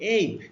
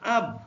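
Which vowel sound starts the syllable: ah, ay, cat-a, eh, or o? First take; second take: ay; ah. First: The vowel is a gliding 'ay' sound. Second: The vowel is an open 'ah' sound. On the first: "যখন এ B এর উচ্চারণ এই" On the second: "যখন এর উচ্চারণ আ"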